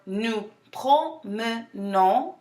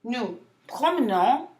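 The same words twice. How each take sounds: First: "nous promenons" very slowly, syllable by syllable; broken down slower. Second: Said in the usual way. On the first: Shown as a demonstration. Teacher for students repeating after her, slow syllable breakdown. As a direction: separate each syllable of "promenons" with small gaps. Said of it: "break it down slower". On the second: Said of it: "if you want me to break it down".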